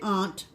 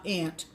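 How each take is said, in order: First: It is said in a New England accent. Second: It is said in a non-New England accent.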